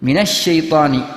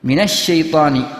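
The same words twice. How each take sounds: First: A short vowel comes before the doubled 'sh'. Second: The same.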